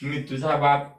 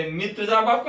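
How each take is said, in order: First: Lower, settled answer of "मी तुझा बाप"; Vishnu's retort. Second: Higher, rising boast of "मी तुझा बाप"; Brahma's claim. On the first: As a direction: counter "मी तुझा बाप" low and firm. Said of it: "आणि ते म्हणते". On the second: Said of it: "हे म्हणते". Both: Acted.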